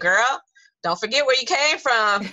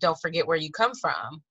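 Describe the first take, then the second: First: It is said in a street hood style. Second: It is said in a plain standard style.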